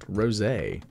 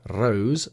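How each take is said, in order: First: It is said as two syllables, ending in 'ay'. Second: It is said as one syllable, like the flower. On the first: The speaker calls it wrong. "not Rosé. Because it's not the wine" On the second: The speaker calls it right. "It is Rose"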